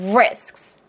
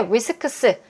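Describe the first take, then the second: First: The final consonants are clearly released. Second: The final consonants are rushed and slurred. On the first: The speaker calls it right. "제대로 뱉어지면" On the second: The speaker calls it wrong. "빠르게 risks, risks가 아니라"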